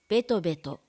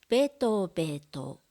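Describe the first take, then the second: First: The word is said at natural speed. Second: The word is said slowly and carefully. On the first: "ナチュラルスピードで読みます" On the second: "まず単語をゆっくり読みます"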